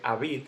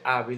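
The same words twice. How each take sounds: First: The stress is on the second syllable. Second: The stress is on the first syllable. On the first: The speaker calls it wrong. "No se dice hábil" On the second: The speaker calls it right. "se dice hábil, el golpe cae en la A"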